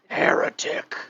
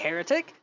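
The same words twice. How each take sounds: First: It is said in a dark, menacing tone. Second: It is said in a light, friendly tone. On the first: The listener is about to be attacked. "then that means that you're about to lose limbs" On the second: It is just a casual greeting. "you know that that just means you know good morning"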